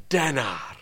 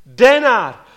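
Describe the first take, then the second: First: Denár said low and soft, falling, almost murmured; quiet offer. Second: Denár said high and loud, ringing, falling at the end; loud exclaimed offer. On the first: Rich landowner offers the worker a denarius, soft and low. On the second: Preacher repeats the landowner's offer of a denarius, loud and high. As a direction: proclaim Denár loudly, high. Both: Acted. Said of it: "osloví vás bohatý statkář a nabídne vám".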